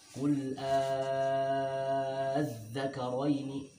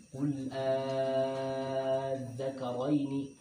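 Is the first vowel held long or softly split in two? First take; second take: held long; held long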